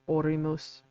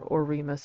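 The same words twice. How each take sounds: First: The word is said slowly and carefully. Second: The word is said quickly.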